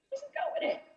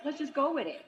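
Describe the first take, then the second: First: High, soft singsong repeat; airy high-pitched echo of the line; mock sing-song. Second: Said in the usual way.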